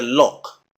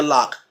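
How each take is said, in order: First: "lock" with a rounded London vowel; rounded British o in "lock"; London pronunciation. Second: "lock" with open American "ah"; unrounded American vowel in "lock"; American pronunciation. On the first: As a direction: say "lock" close to "look". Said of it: "London, you may hear". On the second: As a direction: say "lock" as "lahk". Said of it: "America, you may hear". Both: Shown as a demonstration.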